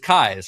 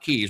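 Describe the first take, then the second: First: The vowel sounds like 'eye'. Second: The vowel sounds like 'ee'. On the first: The speaker calls it right. "we decided it was Kyes, right?" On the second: The speaker calls it wrong. "Not Keys"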